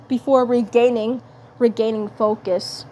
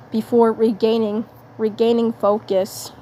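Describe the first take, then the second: No difference in how they are said.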